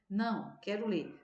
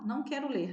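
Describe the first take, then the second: First: There is a pause after não. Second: It runs on without a pause after não.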